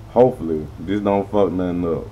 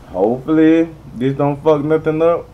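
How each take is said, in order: First: Said in the usual way. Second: Higher and louder, anxious hope; louder, jittery hoping; nervous hope. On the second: Real, not acted. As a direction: blurt it out, nervous and hopeful. Says the line twice.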